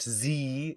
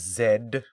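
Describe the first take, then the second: First: The letter is said as 'zee', American style. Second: The letter is said as 'zed', British style. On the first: The speaker calls it wrong. "Not Z" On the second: The speaker calls it right. "because we use British English in this house"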